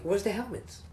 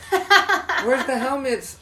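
First: High mocking boss. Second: High, loud, slow cartoon whine; exaggerated cartoon intonation. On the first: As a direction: squeak it like a petty boss. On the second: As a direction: stretch it out mockingly, laughing. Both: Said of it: "he's like".

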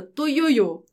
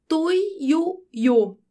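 First: Said in the usual way. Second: "tuiuiu" slowly in separate syllables, pitched higher; careful syllable by syllable. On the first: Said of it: "Eu acertei". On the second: Shown as a demonstration. Teacher tackles a hard-to-say word, careful separated "tuiuiu". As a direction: sound out "tuiuiu" beat by beat. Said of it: "Difícil falar essa palavra".

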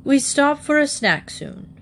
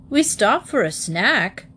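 First: High-pitched, self-important character voice; little official reading out the schedule; important announcement. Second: Questioning repeat in disbelief; mildly astonished father's query; incredulous echo. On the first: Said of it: "importantly from the front seat". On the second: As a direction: echo it back as a startled question. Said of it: "echoed Mister Brown". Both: A narrator's reading.

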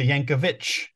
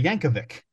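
First: YANKOVIC ending in "vitch"; "itch" ending. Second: YANKOVIC ending in a hard "vick"; correct pronunciation. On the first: Fan showing his home area's way, "itch" ending. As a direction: say YANKOVIC with a final CH sound. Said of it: "pronounced with an itch". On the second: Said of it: "because the correct way". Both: Shown as a demonstration.

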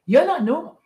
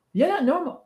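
First: YOU'RE punched, louder; You're not normal with the weight on You're; stress on youre. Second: NOT lifted, rising at the end; You're not normal with the weight on not; stress on not. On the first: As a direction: lean on You're, louder and higher. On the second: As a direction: lean on not, let it rise. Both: Shown as a demonstration.

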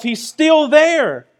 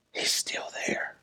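First: Higher and slow, drawn out; high slow cry. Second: Hushed whispered repeat. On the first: Preacher crying out to the congregation, high slow cry. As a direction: stretch it upward like a plea. Loud line before the whisper. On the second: Preacher whispering to the congregation, hushed whisper. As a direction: drop it to a breathless whisper. Whispered echo after shout. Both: Real, not acted.

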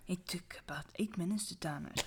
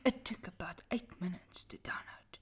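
First: Soft, quick spooky whisper; dramatic whisper. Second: Soft spooky whisper; dramatic whisper. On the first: Rereading the line for friends, whispered and quick. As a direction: hush it like a campfire tale. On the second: Reading a creepy story to friends, whispered dramatically. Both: Acted. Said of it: "Dramatic voice again".

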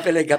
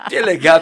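First: Said in the usual way. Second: Laughing. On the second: Real, not acted. Repeats the slang word laughing.

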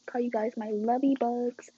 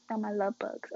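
First: Lovey bugs said with the extra y, whispered; cute whispered lovey bugs. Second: Said in the usual way. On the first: Shown as a demonstration.

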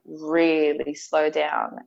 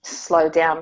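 First: REALLY drawn out, said slowly. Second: Said in the usual way. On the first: Shown as a demonstration. To her husband, drawn out and slow. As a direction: stretch the word really, slowly. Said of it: "but I mean, like, really slow down". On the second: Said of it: "I don't mean, like, slow down".

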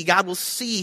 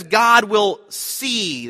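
First: Said in the usual way. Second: Each word drawn out slowly, weight on God; slow emphatic quote. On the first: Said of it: "is literally the word "see". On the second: Shown as a demonstration. Preacher stressing Abraham's words, slowed right down. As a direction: lean into God will see, slowly. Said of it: "That word "provide".

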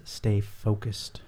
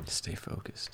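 First: Drawn-out motto; slow catchphrase. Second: Whispered sign-off. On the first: Retold or imitated. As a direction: say it slowly, like a motto. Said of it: "In the words of Michael Akins". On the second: Real, not acted. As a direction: breathe it out as a whisper. Echoing the sign-off motto.

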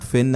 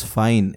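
First: Fin with a short i, like a fish's fin; short vowel in Fin; short-i pronunciation. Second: Fine with an "eye" vowel; long i in Fine, rhyming with "line"; long-i pronunciation. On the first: Co-host correcting the guest's reading, Fin with short i. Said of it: "But it's not Fin". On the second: Co-host correcting the guest's reading, Fine with long i. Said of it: "it's Fine". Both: Shown as a demonstration.

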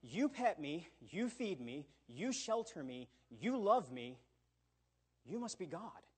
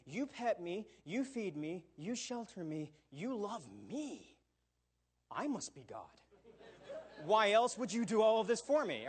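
First: Lightly voiced adoring dog, earnest; a mild hint of a grateful dog's voice; devoted dog. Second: Lightly hammed-up entitled cat; smug cat. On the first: A dog telling its master he must be God, mildly adoring. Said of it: "A dog will say". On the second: A cat telling its master it must be God, mock smug. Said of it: "will take that exact same information and say".

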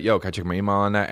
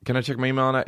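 First: Fast breezy Yo, can I check my email on that?; playful quick aside; casual joking delivery. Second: Said in the usual way. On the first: Shown as a demonstration. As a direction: toss it off quick like a joke. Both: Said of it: "It used to be like".

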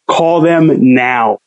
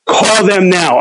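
First: Very slow, each word laid down; slow insistence. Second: Urged higher and quicker, friend pushing him; urgent order. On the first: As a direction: spell it out as if to a child. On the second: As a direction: hurry him up, pitched up. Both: Retold or imitated. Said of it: "He's like".

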